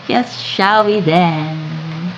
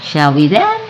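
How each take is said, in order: First: Slow, drawn-out repeat of the question; slower echo. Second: Said in the usual way. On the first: Shown as a demonstration. Inviting viewers to coffee, slow and drawn out. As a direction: stretch the words out as a cozy invitation.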